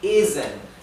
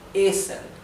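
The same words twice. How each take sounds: First: The middle consonant is a voiced z. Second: The middle consonant is a voiceless s.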